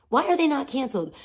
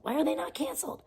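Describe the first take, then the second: First: High, quick, pushed-out repeat; fast indignant demand. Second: High, soft, incredulous question; hushed disbelief. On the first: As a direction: fire it off as a demand. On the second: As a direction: ask it softly, almost to yourself. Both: Real, not acted. Repeats outraged question.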